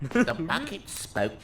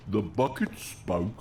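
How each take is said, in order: First: Slow, trying out a bucket voice; testing a silly object voice. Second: Slower, lower bucket voice attempt. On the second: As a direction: another try at the bucket voice. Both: Shown as a demonstration. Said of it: "I'll figure it out on the fly".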